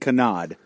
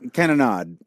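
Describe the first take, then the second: First: One syllable of the word is left out. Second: Every syllable of the word is pronounced. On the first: The speaker calls it wrong. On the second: The speaker calls it right.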